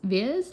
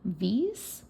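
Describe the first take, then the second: First: The name rhymes with the word his. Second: The name does not rhyme with his. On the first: The speaker calls it right. "you pronounce it Viz, Viz, like like it rhymes with his" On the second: The speaker calls it wrong. "I was pronouncing it super cringe like this"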